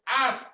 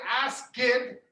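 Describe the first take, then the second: First: The word is one syllable, no extra vowel. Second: The word has an extra vowel, two syllables. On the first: The speaker calls it right. "there is an E there, but you can't hear it" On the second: The speaker calls it wrong. "You don't say ask it"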